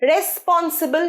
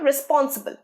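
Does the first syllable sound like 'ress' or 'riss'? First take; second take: ress; riss. First: The first syllable has an 'eh' vowel, 'ress'. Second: The first syllable has an 'ih' vowel, 'riss'. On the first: The speaker calls it wrong. "রেসপন্সিবল নয়, রেস নয়, স্পেলিংটা রেস" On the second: The speaker calls it right. "রিস, pronunciation রিস"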